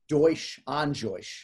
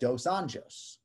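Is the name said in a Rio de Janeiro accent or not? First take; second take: Rio accent; not Rio. First: It is said in a Rio de Janeiro accent. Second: It is said without a Rio de Janeiro accent.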